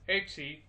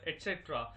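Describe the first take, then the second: First: It is said as three short syllables, etsee. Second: It is said as four syllables, et cetera. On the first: The speaker calls it right. "It's pronounced as etc" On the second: The speaker calls it wrong. "Don't confuse it with et cetera"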